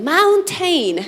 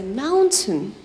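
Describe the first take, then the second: First: "mountain" with a swallowed t, said moun-in; American "mountain", the t swallowed in the throat; American pronunciation. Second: "mountain" slowly, crisp t, moun-tən; British "mountain", the t said clearly; British pronunciation. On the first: Teacher shows the American way to students, t swallowed. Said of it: "It's like American version". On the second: Teacher shows the British way to students, clear t. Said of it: "Other British parts". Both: Shown as a demonstration.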